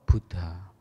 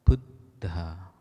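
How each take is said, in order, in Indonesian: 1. Bunyi d-nya tunggal dan beraspirasi. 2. Bunyi d-nya ganda dan beraspirasi. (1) "bukan Buddha atau Buddha" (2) "berarti cara bacanya Buddha"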